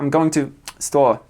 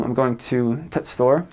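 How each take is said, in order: First: No article before "store"; dropped "the". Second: "the" cut down to a bare t; northern "the" as t. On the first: Showing far-north English speech, "the" left out before "store". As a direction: go straight from "to" into "store" with no "the". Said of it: "they don't say anything at all". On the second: Showing how people north of London talk, "the" reduced to t. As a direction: say "the store" as "t' store". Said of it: "They say t". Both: Shown as a demonstration.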